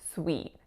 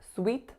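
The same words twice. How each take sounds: First: The vowel glides slightly, with a little movement. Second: The vowel is pure and flat, without movement. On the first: The speaker calls it right. "a tiny bit of movement of diphthongization" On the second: The speaker calls it wrong. "not pure and flat. It's not sweet"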